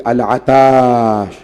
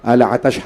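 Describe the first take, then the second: First: Put-on a parched child's wail, held long; drawn-out thirsty cry. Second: Quicker, clipped repeat of the cry; the echo of the cry, cut short; short thirsty cry. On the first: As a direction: stretch the word into a long, slow lament. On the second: Retold or imitated. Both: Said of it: "خیام حسینی سے بار بار آواز آتی تھی".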